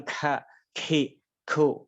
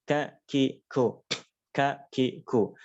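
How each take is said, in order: First: Don't overdo it, too airy; overdone ka. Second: Ka, ki, ku with a light natural puff; normal ka. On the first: Teacher showing the wrong, exaggerated ka, breathy. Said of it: "Jadi bukan". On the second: Teacher modelling the normal ka, light air. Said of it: "Normal saja". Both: Shown as a demonstration.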